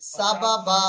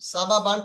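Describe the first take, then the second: First: The word ends with a long a sound. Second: The word ends with an n sound. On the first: "এখন পড়তে হবে সাবাবা" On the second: "সাবাবান"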